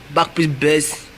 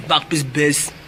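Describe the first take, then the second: No difference in how they are said.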